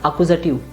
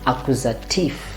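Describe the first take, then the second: First: The ending is said like English 'tiv'. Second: The ending is said like 'teef'. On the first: The speaker calls it wrong. "this one is not accusative" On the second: The speaker calls it right. "You have to say accusative"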